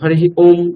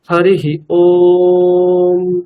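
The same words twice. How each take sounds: First: The final Om is said quickly and short. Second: The final Om is held long and drawn out. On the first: The speaker calls it wrong. "হরিः ওম এরকম বলা বলবেন না।" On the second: The speaker calls it right. "চেষ্টা করবেন ওংকার বলার সময় একটু time নেওয়ার।"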